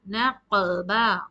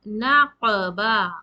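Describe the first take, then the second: The two takes are said the same way.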